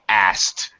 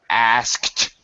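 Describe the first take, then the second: First: The K sound is dropped, leaving S T. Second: The K sound is pronounced before the T.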